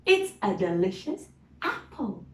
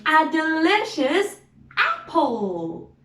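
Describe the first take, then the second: First: Said in the usual way. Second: Excited. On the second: Acted. Excited about the apple.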